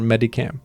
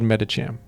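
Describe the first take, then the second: First: The middle consonant is a hard 'k' sound. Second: The middle consonant is a 'ch' sound. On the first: This is the speaker's habitual way of saying it. The speaker calls it wrong. "I've always called it Medicam" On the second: This is probably the official way of saying it. The speaker calls it right. "It's probably called Medicham"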